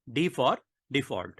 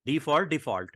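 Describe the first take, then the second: First: Slow, spaced repetition. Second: Said in the usual way. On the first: Shown as a demonstration. Teacher repeating the key shortcut to students, slowly spaced. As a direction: pause between for and default.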